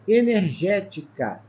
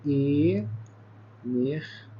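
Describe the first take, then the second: First: Said in the usual way. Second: "Energética" very slow, each syllable held apart. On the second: Shown as a demonstration. Teacher showing students the syllable division, "Energética" said syllable by syllable. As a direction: break "Energética" into syllables with long pauses.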